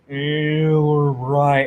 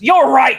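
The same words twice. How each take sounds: First: It is said quietly, under the breath. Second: It is said loudly and angrily.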